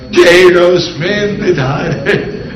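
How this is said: It is said in a dramatic way.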